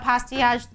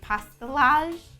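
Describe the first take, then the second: First: The double L is not pronounced. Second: The double L is pronounced. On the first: This is how the speaker says it. "I also don't pronounce the two L's" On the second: People in other countries say it this way. "I think I've heard people in different countries say pastillage"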